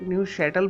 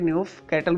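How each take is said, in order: First: The second part begins with an 'sh' sound. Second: The second part begins with a 'k' sound. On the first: The speaker calls it right. "C H जो है शीन की आवाज़ निकालता है, तो इस वजह से न्यू शैटल बोला जाता है" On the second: The speaker calls it wrong. "ना कि न्यू कैटल बोला जाता है"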